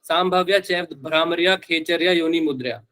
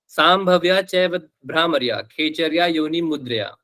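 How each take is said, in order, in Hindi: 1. पूरी पंक्ति बिना रुके, एक साथ पढ़ी जाती है। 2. हर वाक्यांश के बीच थोड़ा रुककर पढ़ें। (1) "मान लो ऐसे पढ़ लिया आपने" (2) "ऐसे करके पॉज लेकर अपने से बनाकर पढ़ना"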